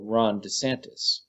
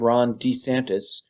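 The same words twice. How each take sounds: First: The stress is on the second syllable. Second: The stress is on the first syllable. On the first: This is the usual way the name is said. "everyone else emphasizes the second syllable" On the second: This is the new way he says his own name. "he seems to be emphasizing the first syllable"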